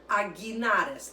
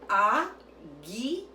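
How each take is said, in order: First: It is said at normal conversational speed. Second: It is said slowly, syllable by syllable.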